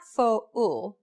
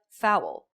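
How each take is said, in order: First: Fo-ul as two separate syllables, "foh" then "ool"; split vowels. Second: Foul as one syllable, vowels glided together; gliding diphthong. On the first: Teacher shows learners the wrong way, fo-ul split in two. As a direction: break fo-ul slowly into two distinct vowels. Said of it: "It's not fo-ul". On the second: Teacher shows learners the correct diphthong, foul in one syllable. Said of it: "It's not fo-ul, but foul". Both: Shown as a demonstration.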